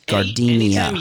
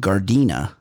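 First: The name is said with an extra vowel, four syllables. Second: The name is said with three syllables. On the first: The speaker calls it wrong. "he mispronounces the city" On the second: The speaker calls it right. "the city where Manuel is from"

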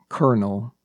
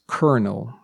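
The two takes are said the same way.

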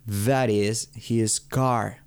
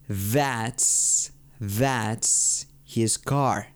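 First: "That is" is said as two full words. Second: "That is" is shortened into one syllable.

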